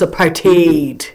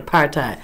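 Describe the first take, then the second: First: The word ends with a sound like hate. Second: The word is said the usual English way. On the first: The speaker calls it right. "But it's apartheid. Okay, apart and hate" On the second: The speaker calls it wrong. "that's the way the English is pronouncing it"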